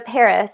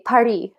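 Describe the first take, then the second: First: Paris is said with an English pronunciation. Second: Paris is said with a French pronunciation.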